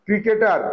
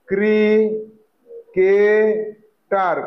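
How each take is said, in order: First: Said in the usual way. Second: ক্রি-কে-টার very slowly, each syllable held with long pauses; broken into syllables. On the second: Shown as a demonstration. Teacher sounding out the word for pupils, slow separate syllables.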